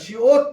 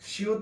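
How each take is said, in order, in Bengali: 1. দ্বিতীয় স্বরধ্বনিটি 'o'-এর মতো শোনায়। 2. দ্বিতীয় স্বরধ্বনিটি 'u'-এর মতো শোনায়। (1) "শিওত বললে ভালো হয়" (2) "শিউত না"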